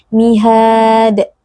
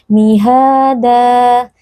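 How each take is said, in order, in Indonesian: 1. Kata ini berakhir tiba-tiba pada bunyi d. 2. Kata ini berakhir dengan vokal a panjang. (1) "tidak dibaca dengan sukun" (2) "dibaca panjang dua harakat"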